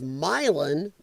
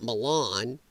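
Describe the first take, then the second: First: The stress falls on the first syllable. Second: The stress falls on the second syllable. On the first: This is how locals say the town's name. The speaker calls it right. "For people like me that grew up in the Quad Cities, this is Milan" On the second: This is how outsiders say the name. The speaker calls it wrong. "not Milan"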